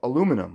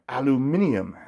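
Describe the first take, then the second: First: It is said the American way. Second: It is said the British way.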